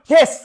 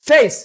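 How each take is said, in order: First: The vowel is a plain e sound. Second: The vowel glides from e to i. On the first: The speaker calls it wrong. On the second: The speaker calls it right.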